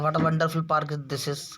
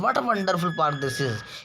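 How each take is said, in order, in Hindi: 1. यह सामान्य तरीके से बोला गया है, बिना किसी तेज़ भावना के। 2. यह तेज़ी से, तेज़ उत्साह के साथ बोला गया है। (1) "ऐसे बोलने में तो सिंपल लगता है" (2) "हम तेजी से बोलते हैं"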